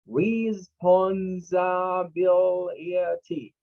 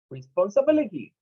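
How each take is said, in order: First: RESPONSIBILITY stretched very slowly, each syllable held. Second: Said in the usual way. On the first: Shown as a demonstration. Teacher breaking a six-syllable word down for students, syllable by syllable. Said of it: "It's a word with six syllables". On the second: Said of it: "this is the word for this week".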